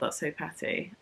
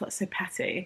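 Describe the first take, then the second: First: It sounds delighted and amused. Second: It sounds disapproving and dismissive. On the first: The pettiness is enjoyable. "In a good way, ... As in like, oh my God" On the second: The pettiness is a criticism. "not in like a"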